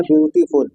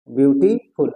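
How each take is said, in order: First: Said in the usual way. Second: beautiful broken in two, beauty, pause, फुल; split into syllables. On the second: Shown as a demonstration. Teacher showing two syllables, beautiful split as beauty - फुल. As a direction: separate beauty from फुल with a clear gap. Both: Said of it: "एक शब्द है आपका beauty और दूसरा शब्द है फुल".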